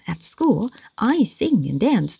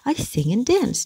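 First: Every word of "at school, I sing and dance" stressed; slow, comically heavy "I sing and dance"; heavy overstressed. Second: "I" high, "sing and" dipped, "dance" rising; "I sing and dance" lilting up at the end on "dance". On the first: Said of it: "Nó sẽ rất là nặng nề và buồn cười". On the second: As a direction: dip "sing and", then lift "dance". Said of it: "cái sing này mình dìm xuống". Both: Shown as a demonstration.

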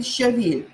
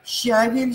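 First: Щавель stressed on «вель»; щавель with a strong Е. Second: Щавель stressed on «ща»; Щавель with a strong А, weak ending. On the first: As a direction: hit the last syllable of щавель. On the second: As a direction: hit the first syllable of Щавель. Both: Shown as a demonstration. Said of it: "А или Е".

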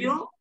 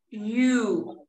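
First: "yo" as "you" with a short, loose oo; "yo" short and lax; less closed vowel. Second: "you" with a long, tight oo; "you" with the vowel held and rounded; closed U. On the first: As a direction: say "yo" with the vowel of "foot". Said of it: "que no es tan cerrada". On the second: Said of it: "dónde cierro más". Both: Shown as a demonstration.

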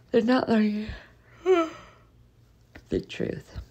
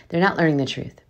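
First: Words stretched through a real yawn, pitch up. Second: Said in the usual way. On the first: Real, not acted. Vlogger to viewers about dentists, yawning mid-sentence. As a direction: yawn right through the line. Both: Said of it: "Sorry for yawning".

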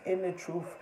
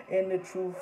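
Both takes have the same delivery.

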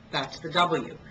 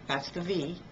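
First: W with rounded lips and no teeth; teacher contrasting W with V; W demo. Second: V with the top teeth on the lip; teacher contrasting V with W; V demo. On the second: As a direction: buzz the V in that's the V. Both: Shown as a demonstration. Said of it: "big difference in English between the letters V".

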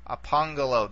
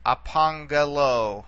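First: Apangalo repeated at normal speed, falling at the end; teacher repeating Apangalo at normal pace. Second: Apangalo said slowly, each syllable clear, ending on lo; teacher modelling Apangalo slowly; slow model pronunciation. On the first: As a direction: say Apangalo again naturally. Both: Shown as a demonstration.

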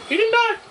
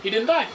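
First: Much higher, outraged disbelief on die; incredulous. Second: Said in the usual way. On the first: Real, not acted. Gamer seeing an enemy survive, outraged disbelief. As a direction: squeal it in disbelief.

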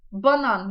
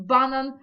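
First: Said in the usual way. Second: "банан" stressed on the first syllable, BA; Polish stress. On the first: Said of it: "Банан ми розуміємо". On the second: Shown as a demonstration. Teacher contrasting Polish with the familiar word, first syllable stressed. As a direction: punch BA in "банан", not the last syllable. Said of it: "а банан може нам".

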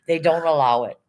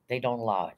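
First: Emphatic. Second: Repeated softer and lower, resigned; quiet, low repeat. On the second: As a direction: drop it down, disappointed. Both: Real, not acted.

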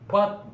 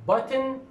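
First: Button short, straight into the n; button, no vowel before the n; syllabic n. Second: Button said high with the vowel sounded; button, the t and vowel both clear; full vowel demo. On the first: Teacher repeats the reduced form. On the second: Teacher repeats the careful form. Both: Shown as a demonstration. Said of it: "these two pronunciations".

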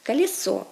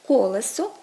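First: Колесо said kaliso, stressed on -СО; Russian end stress. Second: Колесо stressed on КО-; Ukrainian first-syllable stress. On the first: Teacher gives Russian form, колесо stressed on the ending. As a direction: hit the last syllable of колесо. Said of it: "російське". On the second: Teacher gives Ukrainian form, колесо stressed on first syllable. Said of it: "українське". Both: Shown as a demonstration.

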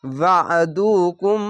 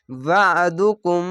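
First: ওয়াদুকুম slow, ain thick from a squeezed throat. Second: ওয়াদুকুম slow, ain thick from a squeezed throat; Quranic recitation. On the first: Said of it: "এইভাবে আইনটিকে". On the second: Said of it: "অবশ্য আইনটিকে মোটা করে গলা চিপে পড়বেন". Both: Shown as a demonstration.

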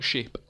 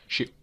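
First: Said in the usual way. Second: "Ship" with a hard, popped final P; "Ship" ending on a crisp, audible P burst; emphasis on the P. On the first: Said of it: "Instead of going like". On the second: Retold or imitated. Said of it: "He emphasises on the P".

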